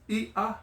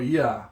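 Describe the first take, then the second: First: The two vowels are split by a short catch. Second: The two vowels glide together into one syllable. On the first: It means fish. The speaker calls it right. "is with that mark, and you separate the two" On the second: It means something else. The speaker calls it wrong. "If you don't separate it, it's ya"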